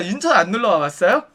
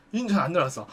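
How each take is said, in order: First: Lightly voiced hostess question, rising at the end; chatty hostess. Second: Low, soft, falling reply; terse male customer. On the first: Hostess keeping a customer talking, chatty questioning. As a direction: ask with a lifted, lingering ending. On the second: Retold or imitated. Customer answering the hostess's small talk, terse and low. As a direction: drop it low and quiet, giving little back.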